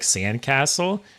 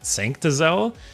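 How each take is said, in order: First: The name begins with a 'sand' sound. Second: The name begins with a clear 'sanct' sound. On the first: The speaker calls it right. "apparently it said more like Sandcastle" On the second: The speaker calls it wrong. "I keep saying it wrong. I keep saying Sanct"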